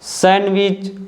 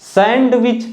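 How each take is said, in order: First: The d sound is left out. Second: The d sound is pronounced. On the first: The speaker calls it right. "यहाँ पर डी silent है" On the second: The speaker calls it wrong. "इसको आप सैंडविच नहीं पढ़ोगे"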